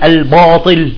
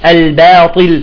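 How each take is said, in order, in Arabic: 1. صوت ba ثقيل وغليظ. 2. صوت ba خفيف ورقيق.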